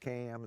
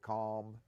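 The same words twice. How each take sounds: First: The vowel has the local island dialect sound. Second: The vowel has the standard mainland sound. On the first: "We'll say the water's calm" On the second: "instead of"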